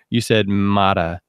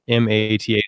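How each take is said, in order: First: It is said as a single word. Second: Each letter is said separately.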